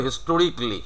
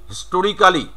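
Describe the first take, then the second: First: "হিস্টোরিকলি" shortened to historik-li; "হিস্টোরিকলি" ending in "rik-li"; native-style "historically". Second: "হিস্টোরিক্যালি" with a full "kaa" before "li"; every written syllable of "হিস্টোরিক্যালি" sounded; wrong "হিস্টোরিক্যালি". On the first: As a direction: say "হিস্টোরিকলি" with no "kaa". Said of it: "উনি বলবে". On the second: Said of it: "এটা বলবে না". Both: Shown as a demonstration.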